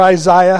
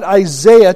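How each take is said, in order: First: Isaiah with a long "eye" in the middle; alternative pronunciation. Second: Isaiah with a long "ay" in the middle; eye-ZAY-uh for Isaiah; first pronunciation variant. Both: Shown as a demonstration. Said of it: "however you want to say it".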